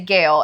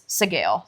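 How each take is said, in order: First: The name starts without an S sound. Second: The name starts with an S sound. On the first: "make it a silent S" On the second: "if you assume the author is using like Gaelic origin of language"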